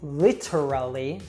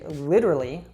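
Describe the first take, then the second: First: The T is said clearly and fully. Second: The T is a soft, flapped D-like sound. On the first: The speaker calls it wrong. "we usually don't say literally" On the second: The speaker calls it right. "with that American T"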